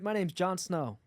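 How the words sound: It is spoken in an American accent. "can you do American?"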